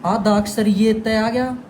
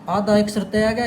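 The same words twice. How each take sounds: First: ये stressed, phrase said slowly; teacher slowing down to mark the half letter ये; slow emphatic demo. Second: Said in the usual way. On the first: Shown as a demonstration. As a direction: lean on ये in आधा अक्षर ये तय आ गया, slowly. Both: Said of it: "एक word को ध्यान से सुन लेना".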